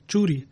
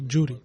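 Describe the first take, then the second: First: The word begins with a 'ch' sound. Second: The word begins with a 'j' sound. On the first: This is the native pronunciation. The speaker calls it right. "unable to pronounce the word churi" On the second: The speaker calls it wrong. "instead would say juri"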